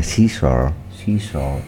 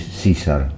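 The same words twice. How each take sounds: First: Imitating an English teacher's "César" as "SEE-sor"; teacher's English pronunciation. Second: "César" said the English way, as "SEE-sar"; English pronunciation. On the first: Recalling the English teacher to friends, "César" imitated as "SEE-sor". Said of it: "profesora de inglés y me decía". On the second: Shown as a demonstration. Chatting about the name's meaning, "César" pronounced in English. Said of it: "En inglés me, es César".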